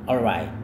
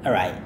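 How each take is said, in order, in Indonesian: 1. Kata itu diucapkan lengkap dengan bunyi L. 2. Kata itu diucapkan tanpa bunyi L. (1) "Cara sebutnya adalah alright" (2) "Kadang L-nya nggak berbunyi"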